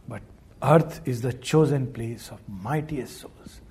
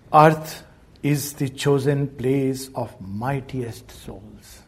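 First: Said in the usual way. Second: Slow, solemn recitation of a verse line; reciting a poem line. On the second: Shown as a demonstration. Teacher slowly reciting a verse line to listeners. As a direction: draw out the line like sacred verse. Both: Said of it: "Just a few lines about that".

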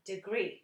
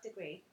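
First: DEGREE said with mocking emphasis; mimicked pronunciation. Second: Said in the usual way. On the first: Teasing co-host on the way DEGREE was said, mimicked emphasis. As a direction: imitate the co-host's careful DEGREE. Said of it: "And that was degree, not degree". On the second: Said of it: "not degree".

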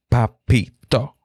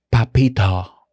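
First: "Papito" said slowly with lips pressed to the mic; right on the mic. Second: "papito" with hard, bursting P's; popped P. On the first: Podcast teacher demonstrating a pop up close, slow close-mic "Papito". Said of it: "pero yo me pegué al micrófono". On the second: Podcast teacher showing how a plosive pops, hard-P "papito". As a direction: punch both P's in "papito". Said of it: "y cuando dices". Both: Shown as a demonstration.

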